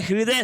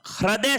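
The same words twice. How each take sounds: First: हृदय said "hri-day", with ri; an i vowel after hr in हृदय; correct pronunciation model. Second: हृदय said "hra-day", with ra; an a vowel after hr in हृदय; wrong pronunciation demo. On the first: Teacher correcting for students, हृदय as "hriday". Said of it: "हृदय शब्द होता है". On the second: Teacher rejecting the wrong word, हृदय as "hraday". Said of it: "हृदय शब्द नहीं होता है". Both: Shown as a demonstration.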